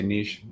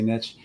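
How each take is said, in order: First: Niche is said in a non-American way. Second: Niche is said the usual American way. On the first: "I prefer to say niche" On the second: "Americans, we often say niche"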